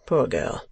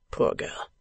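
First: Said in the usual way. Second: Poor girl murmured unvoiced, very soft; Poor girl breathed as if thinking aloud; murmured to himself. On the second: A narrator's reading. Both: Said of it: "as if merely passing through his own mind".

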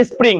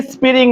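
First: স্প্রিং as one fast burst; quick স্প্রিং with no vowel after p; correct quick pronunciation. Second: স্প্রিং stretched into is-pi-ring; drawn-out, split স্প্রিং; wrong slow pronunciation. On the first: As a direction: run spr together in স্প্রিং. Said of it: "দ্রুত বলো তো". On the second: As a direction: put a vowel between p and r in স্প্রিং. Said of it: "এভাবে ধীরে ধীরে নয়". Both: Shown as a demonstration.

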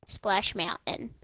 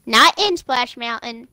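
First: Said in the usual way. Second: In punched, not in Splash Mountain; stress on in. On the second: Shown as a demonstration. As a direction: lean hard on in.

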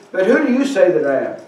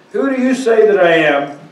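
First: Said in the usual way. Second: "you" stressed, the question put more firmly. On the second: Retold or imitated. Preacher putting Jesus's question to the class, stress on "you". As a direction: repeat the question, leaning on "you".

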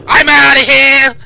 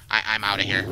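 First: Very high, very loud, drawn-out yell; panicked scream. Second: Said in the usual way. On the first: Real, not acted. Player fleeing after a bad feeling, panicked scream. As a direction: scream it at full volume, stretched out.

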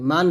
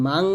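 First: "মান" ending in a plain n; unhummed n at the end of "মান"; clear n. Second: "মাং" ending in a nasal ng. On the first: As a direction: say "মান" short, tongue closing on n. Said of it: "মান না, এটা মাং বলবেন।". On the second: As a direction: hum the end of "মাং" through the nose. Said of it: "এটা মাং বলবেন।". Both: Shown as a demonstration.

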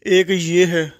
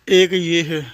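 The two takes are said the same way.

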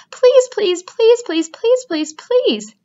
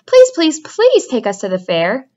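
First: Whining goslings nagging, calming down bit by bit; teasing goslings. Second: A small gosling pleading, the first please shot up high; begging gosling. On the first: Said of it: "all seven began teasing to go". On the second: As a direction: beg like an excited little gosling. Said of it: "begged a gosling". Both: A narrator's reading.

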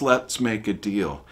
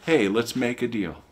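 First: Slow, mock bargaining with God. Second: Breezy mock bargain with God. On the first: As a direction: offer God a deal, slowly. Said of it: "No, that's". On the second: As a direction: toss God a casual deal. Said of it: "Are you saying".

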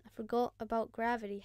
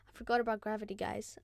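First: Said in the usual way. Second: Fast, laughing through the words; quick laughing confession; laughing at himself. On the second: Real, not acted. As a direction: giggle it out at your own blunder. Repeats the line plainly after.

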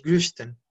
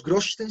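First: GRÖSTEN with fronted O-umlaut; pronunciación con umlaut. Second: GROSTEN with a plain round O; pronunciación sin umlaut. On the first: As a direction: say "Grösten" with rounded lips on the Ö. ("Grösten" con O umlaut) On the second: ("Grosten" con O normal, sin umlaut) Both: Shown as a demonstration. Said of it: "cambia el O por O umlaut".

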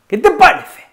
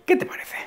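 First: "¿Qué te parece?" con subida aguda en qué y caída en parece; entonación animada. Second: Susurrado. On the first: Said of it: "Con esta entonación". (entonación de ánimo muy aguda) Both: Shown as a demonstration.

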